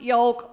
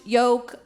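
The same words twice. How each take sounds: First: The L sound in the word is pronounced. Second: The L sound in the word is silent. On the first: "sometimes I pronounce the L in yolk" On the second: "no, it's pronounced yolk like choke"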